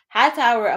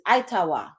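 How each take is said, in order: First: It starts with 'high' and ends in 'er'. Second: It starts with 'ee' and ends in 'ah'. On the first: This is the English rendering used today. "we pronouncing it like that today" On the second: This is the original Muskogee Creek word. "the actual pronunciation of it is Itawa"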